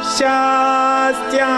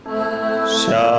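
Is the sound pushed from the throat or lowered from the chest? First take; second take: throat; chest. First: It is pushed tightly from the throat. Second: It is lowered and comes from the chest.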